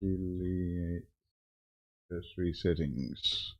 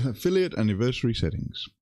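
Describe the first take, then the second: First: Muttering to himself. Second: Said in the usual way. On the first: Real, not acted. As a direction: mumble the menu name under your breath. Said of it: "reading settings to himself". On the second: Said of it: "reading settings again".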